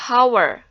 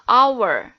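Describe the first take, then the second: First: The word starts with an audible h sound. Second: The word starts with a vowel, no h sound. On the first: The speaker calls it wrong. "tidak dibaca hour" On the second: The speaker calls it right. "tetapi dibacanya hour"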